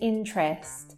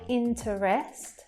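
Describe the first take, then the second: First: The middle syllable is dropped, leaving two syllables. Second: The middle syllable is pronounced with a weak vowel. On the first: The speaker calls it right. "We say interest" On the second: The speaker calls it wrong. "So we don't say interest"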